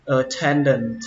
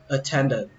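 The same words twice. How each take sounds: First: "attendant" ending in a released t; "attendant" as uh-then-dent, last t audible; final T sounded. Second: "attendant" ending on n; "attendant" as uh-then-dun, no closing t; final T dropped. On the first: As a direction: finish "attendant" on a clear nt. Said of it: "không cần đọc âm T nữa". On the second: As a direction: leave the last t off "attendant". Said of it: "các bạn không cần đọc âm T nữa". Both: Shown as a demonstration.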